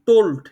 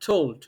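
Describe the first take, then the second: First: The T fully blocks the airflow. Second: The T lets a little air escape. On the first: The speaker calls it wrong. "এটা আমি টোটালটাই block করে বলছি" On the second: The speaker calls it right. "আমি block না করে আমি এভাবে বলি, হালকা একটু রিলিজ করি।"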